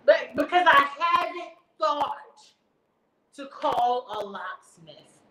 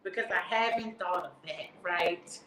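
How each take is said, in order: First: "haven't thought to call a locksmith" spelled out slowly, word by word; slow sarcastic emphasis. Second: Lower, dry sarcasm; sarcastic aside. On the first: Mocking the operator's locksmith advice, slow sarcastic drawl. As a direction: drag it out slowly to mock her. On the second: Mocking the operator's locksmith advice, low sarcastic aside. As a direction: mutter the sarcasm low to the audience. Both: Real, not acted.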